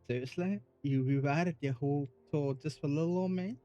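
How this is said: It is read in a put-on Southern belle accent.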